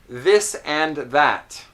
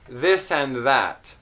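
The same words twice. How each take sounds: First: Every word, including 'and', is carefully enunciated. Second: The word 'and' is somewhat reduced. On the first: "if I enunciate a lot and you know, very, very clearly" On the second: "if I reduce the enunciation a little bit"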